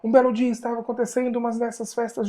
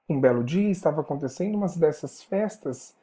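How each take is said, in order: First: It is read in a crime-news reporter's voice. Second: It is read in a storytelling narrator's voice. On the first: "a narradora como repórter de um programa policial" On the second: "a narradora como contador de história"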